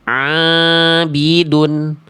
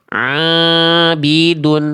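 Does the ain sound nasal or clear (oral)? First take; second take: nasal; nasal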